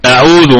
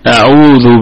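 First: The middle vowel is clipped short, said quickly. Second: The middle vowel is held for two beats. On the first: The speaker calls it wrong. "كأن يقول القارئ أعوذ أعوذ أعوذ مباشرة هكذا، لا" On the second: The speaker calls it right. "لابد أن تعطيها زمنا كالمد الطبيعي"

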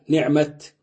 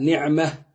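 First: The word ends with a t sound. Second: The word ends with an h sound. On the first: The word is written with an open taa. "تقف عليها بالتاء" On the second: The word is written with a tied taa. "تقف عليها بالهاء"

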